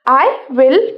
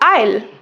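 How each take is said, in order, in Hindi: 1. दोनों शब्द पूरे और अलग-अलग बोले जाते हैं। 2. दोनों शब्द जुड़कर एक छोटे शब्दांश में बोले जाते हैं।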